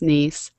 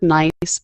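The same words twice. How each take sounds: First: The vowel is 'ee', like niece. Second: The vowel is 'eye', like English nice. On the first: It is the name of the French city. "it's pronounced like the city in France" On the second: It is the ordinary English word. "spelled like the word nice"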